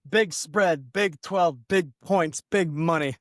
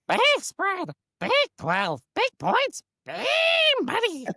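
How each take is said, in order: First: It is said in the speaker's normal voice. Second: It is said in a put-on cartoon character voice.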